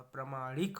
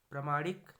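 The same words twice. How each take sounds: First: प्रमाणिक with stretched middle 'maa'; correct form. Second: प्रमाणिक punched, louder at the start; wrong form. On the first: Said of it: "होगा". (प्रमाणिक, 'मा' खींचकर) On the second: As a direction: give प्रमाणिक a short 'pra'. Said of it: "नहीं होगा". (प्रमाणिक, 'प्र' छोटा) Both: Shown as a demonstration.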